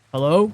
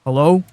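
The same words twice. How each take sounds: First: Lower, louder phone hello; deep voice. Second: "Hello?" in a deep, loud voice with a rising end. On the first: Answering an unknown caller in a deep voice. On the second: Answering a scam call in a deep voice to sound good. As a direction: put on a deep, booming hello. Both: Retold or imitated. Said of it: "in my deep voice".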